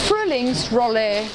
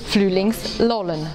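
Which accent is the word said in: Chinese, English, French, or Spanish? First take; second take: English; Chinese. First: It is said with an English-sounding R. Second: The R sounds are replaced by L sounds. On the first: "Englisch sprechende Schüler sagen es nochmal anders" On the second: "Sie ersetzen den Buchstaben R durch ein L"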